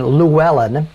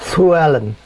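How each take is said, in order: First: It starts with a plain voiced L sound. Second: It starts with a breathy hissed L sound. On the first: "we to say the name of being Llewellyn" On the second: "in the Welsh, the L's sound like an S that you blow the air through"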